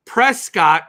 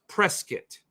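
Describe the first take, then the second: First: Slow, loud PRES-COTT; full second syllable in Prescott; Prescott as spelled. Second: Reduced second syllable in Prescott; local Prescott pronunciation. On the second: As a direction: say Prescott as PRESS-kit. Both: Shown as a demonstration. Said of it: "is pronounced Prescott".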